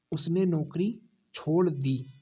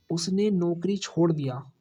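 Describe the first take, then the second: First: Slower, with the stress on छोड़; slow corrected sentence. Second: Said in the usual way. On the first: Shown as a demonstration. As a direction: say छोड़ dī slowly and deliberately, as the correction. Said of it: "नौकरी के अनुसार आएगा ना". (धीरे, छोड़ पर ज़ोर देकर) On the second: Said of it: "किसके अनुसार आएगा?".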